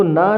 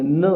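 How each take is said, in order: First: "ना" said with a long aa vowel as the wrong way; long "naa". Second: "न" said with a short, clipped a as the right way. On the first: Teacher to students, showing the wrong long "ना". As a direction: stretch the vowel in "ना". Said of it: "इसको ना नहीं बोलेंगे". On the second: Teacher to students, modelling the right short "न". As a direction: keep "न" short. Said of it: "हम इसे न बोलेंगे". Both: Shown as a demonstration.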